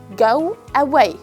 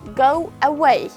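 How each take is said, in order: No difference in how they are said.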